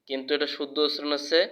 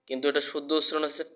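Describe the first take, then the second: No difference in how they are said.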